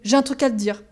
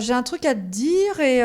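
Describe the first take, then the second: First: The sentence ends abruptly and firmly. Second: The voice trails off as if unfinished.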